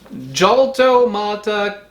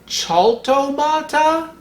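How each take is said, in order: First: It begins with an English j sound. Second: It begins with a rough guttural throat sound. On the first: "pronounce it wrong" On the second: "more guttural like the German C H"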